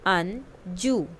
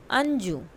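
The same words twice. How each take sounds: First: "Anju" slowly, both syllables drawn out; slow model word. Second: Said in the usual way. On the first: Shown as a demonstration. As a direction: stretch the name for the class. (धीरे-धीरे खींचकर "Anju") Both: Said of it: "listen to your teacher and say the following word".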